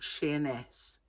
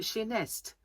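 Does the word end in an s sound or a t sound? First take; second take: s; t. First: The word ends with an s sound. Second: The word ends with an added t sound. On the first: This is the standard name of the town. "a town called Sheerness" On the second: This is how the island's natives said it. "they used to call it Sheernest"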